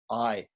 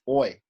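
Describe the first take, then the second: First: The vowel is pronounced like 'ai'. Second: The vowel is pronounced like 'oi'. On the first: This is the proper Sanskrit pronunciation. The speaker calls it right. "We have to pronounce it as I" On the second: This is the Bengali-style pronunciation. The speaker calls it wrong. "the A I sound in Bengali is oi"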